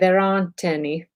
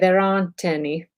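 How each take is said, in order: First: It is said in an American accent. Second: The same.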